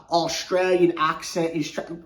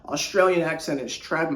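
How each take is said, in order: First: Half-hearted attempt at an Australian accent; bad Australian accent. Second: Said in the usual way. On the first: Shown as a demonstration. Apologizing for a poor impression, attempted Australian accent. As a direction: badly fake an Australian accent. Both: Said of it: "I can't do that imitation".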